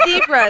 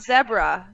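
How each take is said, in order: First: ZEBRA as ZEE-bruh; American zebra. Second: ZEBRA as ZEB-ruh, slowly; mock Australian zebra. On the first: Shown as a demonstration. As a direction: say "zebra" with a long E. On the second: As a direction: imitate "zebra" with a short E. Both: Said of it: "It's not zebra".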